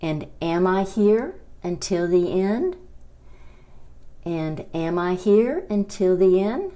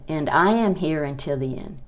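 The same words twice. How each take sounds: First: Rising question tune on "end"; question rise. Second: Falling statement on "end". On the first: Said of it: "Y la pregunta sería". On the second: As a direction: say "And I am here until the end." flat and falling. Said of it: "La oración sería". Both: Shown as a demonstration.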